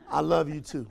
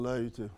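First: It is said warmly and with feeling. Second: It is said flatly and offhandedly. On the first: He truly means it. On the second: He does not really mean it.

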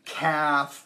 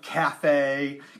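First: The name is said like the word calf. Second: The name is said like the word cafe. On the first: "they didn't know how to pronounce it" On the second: "they didn't know how to pronounce it"

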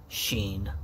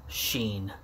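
No difference in how they are said.

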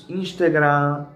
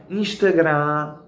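The two takes are said the same way.

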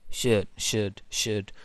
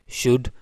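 First: The vowel is said with unrounded lips. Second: The vowel is said with rounded lips.

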